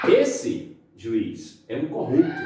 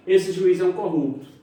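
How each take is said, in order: First: Slow, Esse, pause, juiz, pause, é um corrupto; pausas das vírgulas. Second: Esse juiz é um corrupto in one high, loud run; afirmação sem vírgulas. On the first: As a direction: set juiz apart with a pause on each side. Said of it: "o uso das vírgulas". (Esse, pausa, juiz, pausa, é um corrupto) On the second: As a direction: assert Esse juiz as one unit, no pauses. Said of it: "eu estou focando". (Esse juiz emendado, agudo e forte) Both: Shown as a demonstration.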